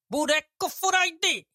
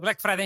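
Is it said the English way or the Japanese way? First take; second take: Japanese; English. First: It has no L and vowels between consonants. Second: It is said with ordinary English consonant clusters.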